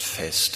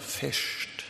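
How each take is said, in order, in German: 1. Das Wort hat ein einfaches s vor dem t. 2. Das Wort hat einen sch-Laut vor dem t. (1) "dass es hier nicht Fest heißt" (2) "So viel Schwäbisch ... sondern Fescht"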